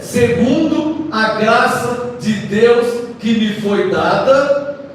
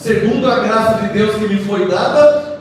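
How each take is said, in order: First: It is read very slowly. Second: It is read at a normal speed.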